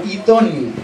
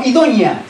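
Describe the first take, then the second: First: "idónea" as the corrected word, carefully said; corrected pronunciation. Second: "idónea" as rejected version, pitched up; rejected pronunciation. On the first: Preacher corrects the word for his congregation, careful "idónea". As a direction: say "idónea" as the proper version, settling downward. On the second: Preacher corrects himself on the woman's description, rejected "idónea". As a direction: say "idónea" the mistaken way, falling after a raised peak. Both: Shown as a demonstration. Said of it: "No idónea, sino idónea".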